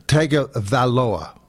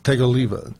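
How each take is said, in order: First: "Tagovailoa" slowly, syllable by syllable; slow, corrected "Tagovailoa" with every vowel given room; careful name pronunciation. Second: Rough first try at "Tagovailoa", run together quickly; "Tagovailoa" as a quick, unfinished attempt; uncertain name attempt. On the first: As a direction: sound out "Tagovailoa" in full, ending on a fall. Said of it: "you got it there". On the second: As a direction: say "Tagovailoa" tentatively, middle syllables blurred. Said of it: "Is that the proper way?". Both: Shown as a demonstration.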